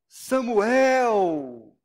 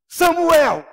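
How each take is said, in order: First: The name is said in a warm, welcoming tone. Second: The name is said in a harsh, stern tone. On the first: The person is being welcomed. "um bem-vindo" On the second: The person is being firmly rebuked. "uma repreensão mais rigorosa"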